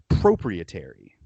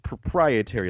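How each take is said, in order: First: The word is said with an odd, non-native pronunciation. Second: The word is said with standard English pronunciation. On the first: The speaker calls it wrong. "she pronounced the word proprietary proprietary" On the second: The speaker calls it right. "it's proprietary, let's do that again"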